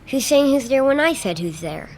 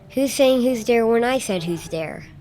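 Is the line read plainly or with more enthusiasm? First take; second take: more enthusiasm; plainly. First: It is read with more enthusiasm. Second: It is read with little enthusiasm.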